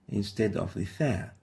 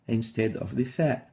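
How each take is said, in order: The two takes are said the same way.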